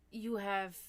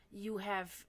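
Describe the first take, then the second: No difference in how they are said.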